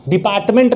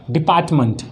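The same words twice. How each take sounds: First: "डिपार्टमेंट" with a full, clear "ment" at the end; wrong pronunciation. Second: "डिपार्टमेंट" with a reduced "munt" ending; correct pronunciation. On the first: Teacher showing students how not to say it, wrong pronunciation. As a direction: say "डिपार्टमेंट" with the last vowel as a full e. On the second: Teacher modelling the word for students, correct pronunciation. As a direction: say "डिपार्टमेंट" with a schwa in the last syllable, falling. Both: Shown as a demonstration. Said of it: "नहीं होता है".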